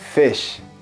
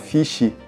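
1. A palavra termina limpa no som 'sh'. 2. A palavra termina com uma vogal extra, 'ee'. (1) "Sem o som do i no final" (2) "que o brasileiro às vezes fala fish, né, não tem esse i no final"

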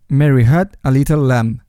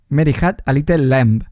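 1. Se dice con vocales inglesas. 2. Se dice con vocales españolas. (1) "que esto otro" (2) "nos aferramos a las vocales que conocemos"

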